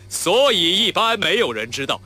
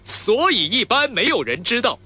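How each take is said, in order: First: Slow and louder, from the chest; chest resonance. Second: Higher, louder and slow, ringing in the head; head resonance. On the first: Actor demonstrating chest resonance to his friend. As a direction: push the line out from your chest. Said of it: "这个是胸腔共鸣". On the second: Actor demonstrating head resonance to his friend. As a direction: ring the line up in your head. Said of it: "这个是头腔共鸣". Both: Shown as a demonstration.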